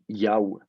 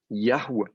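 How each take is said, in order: First: No h sound is heard between the vowels. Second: An h sound is heard between the vowels. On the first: This is a dialect form where the He has dropped. "alors qu'ici, du coup, c'était prononcé" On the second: This is the form where the He is still pronounced. "ça devait être prononcé quelque chose comme"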